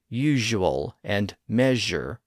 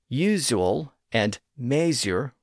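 First: The middle consonants are J-like sounds. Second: The middle consonants are plain Z sounds. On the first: This is the modern pronunciation. "with their J sounds" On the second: This is the older pronunciation. "with their Z sounds"

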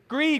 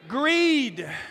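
First: The word is said with ordinary, calm energy. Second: The word is said with more passion and force. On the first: "say it with me" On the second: "a little bit more passionate"

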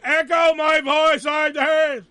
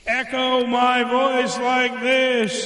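First: The voice is dry, yelled without echo. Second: The voice has an echo effect on it. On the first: "They just hear me yelling, going" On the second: "if I do the echo my voice like this"

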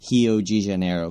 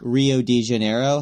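First: It is said with Portuguese sounds, without English r. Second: It is said with English sounds and English r. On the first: The speaker calls it right. "is actually Rio de Janeiro, because R's are not pronounced" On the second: The speaker calls it wrong. "how we would say it in English"

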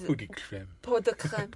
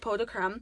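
First: It is said with a French accent. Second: It is said with a plain English accent.

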